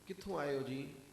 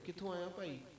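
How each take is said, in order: First: It is said in an affectionate tone. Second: It is said in a harsh tone.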